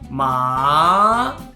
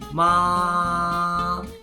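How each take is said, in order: First: The pitch rises from mid to high. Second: The pitch stays high and level. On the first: "Second tone starts with the pitch that is lower than first tone, and it goes all the way up to first tone" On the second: "First tone is the tone with the highest pitch, and it goes flat up there"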